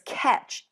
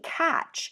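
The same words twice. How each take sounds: First: The vowel sounds like the 'e' in bet. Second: The vowel sounds like the 'a' in bat. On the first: The speaker calls it wrong. "I say it like this" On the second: The speaker calls it right. "but it's actually catch"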